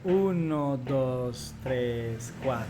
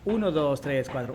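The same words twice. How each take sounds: First: The counting is slow. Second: The counting is fast.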